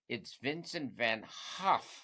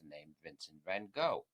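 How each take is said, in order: First: The name is said the Dutch way. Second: The name is said the common English way. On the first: The speaker calls it right. "That's how it's pronounced properly in Dutch" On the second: The speaker calls it wrong. "which is what everybody says"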